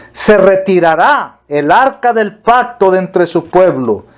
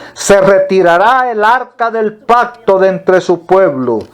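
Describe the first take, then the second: Both takes have the same delivery.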